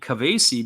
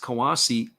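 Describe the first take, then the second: First: The second consonant is a V sound. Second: The second consonant is a W sound. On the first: This is how German speakers would say the name. "In German, there was it would be Kavasi because they would say the W a little bit different" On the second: This is how the name is said in Japanese. "I think it's Kawase more in the Japanese sense"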